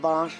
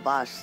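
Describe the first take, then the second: First: The word ends in an sh sound. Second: The word ends in a plain s sound. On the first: The speaker calls it wrong. "বল বাঁশ নয় বাস" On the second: The speaker calls it right. "বল বাঁশ নয় বাস"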